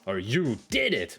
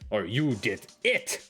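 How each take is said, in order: First: The stress is on "did". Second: The stress is on "it".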